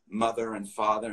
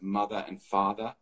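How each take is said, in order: First: The R sounds after the vowels are pronounced. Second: The R sounds after the vowels are dropped. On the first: "doing R's after vowel sounds. I'm saying" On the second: "instead of"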